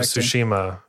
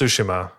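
First: The stress is on the second syllable. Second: The stress is not on the second syllable. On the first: The speaker calls it wrong. "I always thought it was Ghost of Tsushima" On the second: The speaker calls it right. "But it's Tsushima, and that's how they say it in the game anyway"

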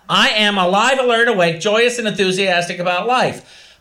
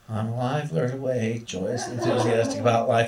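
First: It is said forcefully, sounding angry. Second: It is said calmly, without force.

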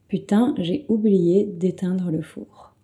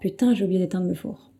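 First: The sentence is said at a slower pace. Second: The sentence is said at a faster pace.

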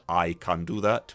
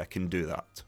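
First: The word 'can' is said in full with a clear vowel. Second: The word 'can' is reduced with a weak vowel. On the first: The speaker calls it wrong. "we don't say" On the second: The speaker calls it right. "we say"

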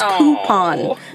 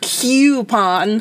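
First: The first syllable sounds like 'coop'. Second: The first syllable does not sound like 'coop'. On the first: The speaker calls it right. "It's coupon" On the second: The speaker calls it wrong. "not coupon"

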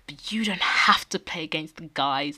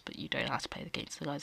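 First: The remark is delivered in a blatant, full-on way. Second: The remark is delivered in a subtle, understated way. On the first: The dig is open and unmistakable. "It was a full-on" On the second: The dig is softened and barely noticeable. "It wasn't like a really subtle sort of"

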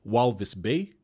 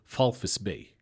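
First: The letter V is said with a V sound. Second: The letter V is said with an F sound. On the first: The speaker calls it wrong. "you'd read it as Walvis Bay" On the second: The speaker calls it right. "the V is an F. So it's Falfis Bay is how you say it"

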